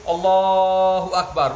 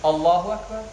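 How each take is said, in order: First: The phrase is drawn out and prolonged. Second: The phrase is said briefly without prolonging. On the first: The speaker calls it wrong. "long. ... it's not from the Sunnah" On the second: The speaker calls it right. "like that one. No long than this one"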